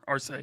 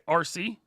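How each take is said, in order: First: The name is said as one word. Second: The name sounds like two separate letters. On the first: The speaker calls it right. "so not like the Transformer" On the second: The speaker calls it wrong. "now I want to make sure I'm saying this right"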